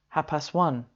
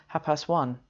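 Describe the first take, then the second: Both takes have the same delivery.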